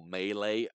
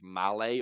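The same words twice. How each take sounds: First: Malay with first syllable like "may"; second pronunciation option. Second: Malay with first syllable like "pal"; first pronunciation option. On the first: Offering another guess at the name, Malay as MAY-lay. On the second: Unsure of a man's name, tries Malay as MAL-ay. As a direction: say Malay as MAL-ay, short flat A. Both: Shown as a demonstration. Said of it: "I don't know if it's Malay or".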